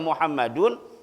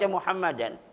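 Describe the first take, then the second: First: The name ends with an 'un' sound. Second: The name ends with an 'an' sound. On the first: Zaid and Muhammad both stood up. "boleh kita baca Muhammadun" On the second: Zaid stood up together with Muhammad. "boleh kita baca Muhammadan"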